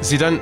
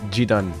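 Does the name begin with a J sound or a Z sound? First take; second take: Z sound; J sound. First: The name begins with a buzzing Z sound. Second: The name begins with a soft J sound. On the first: "I say it like Zidane" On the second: "Do you say G?"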